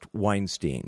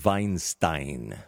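First: The name is said in a non-German way. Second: The name is said the German way. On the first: "his name may be pronounced Weinstein" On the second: "the traditional German pronunciation, in this case, would be something like Weinstein"

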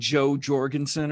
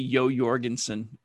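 First: The first name begins with a J sound. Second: The first name begins with a Y sound. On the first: This is how Americans say the name. "I think Americans pronounce it Joe Jorgensen" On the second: This is the speaker's own way of saying the name. "But for me, it'll always be Yo Jorgensen"

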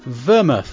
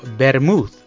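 First: The word is said with an English pronunciation. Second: The word is said with a Spanish pronunciation.

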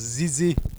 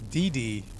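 First: The name begins with a Z sound. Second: The name begins with a plain D sound. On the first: "But with the French accent, it was Zizi" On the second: "her childhood nickname was Didi"

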